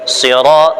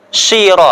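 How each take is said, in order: First: It starts with a deep, emphatic s sound. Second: It starts with a sh sound. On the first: The speaker calls it right. "Harus jelas" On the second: The speaker calls it wrong. "Ada yang shin"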